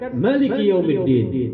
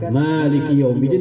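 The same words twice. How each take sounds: First: The first vowel of Maliki is short. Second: The first vowel of Maliki is long. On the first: It is the most authentic reading. "bil qasri, dengan memendekkan" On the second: It has one more letter, earning more reward. "pendapat yang pertama mengatakan Maliki Yaumiddin lebih afdal"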